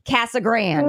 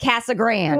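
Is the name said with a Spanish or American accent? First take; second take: American; American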